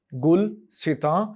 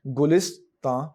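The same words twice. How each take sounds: First: गुलसितां split as gul-si-taan, said slowly; slow gul-si-taan with the s after gul; first pronunciation. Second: गुलिस्तां as gu-lis-taan with falling close; second pronunciation. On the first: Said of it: "लफ्ज़ गुलसितां भी होता है". (गुलसितां, गुल-सि-तां, धीरे से) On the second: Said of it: "और गुलिस्तां भी होता है". (गुलिस्तां, गु-लिस-तां, गिरती लय में) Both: Shown as a demonstration.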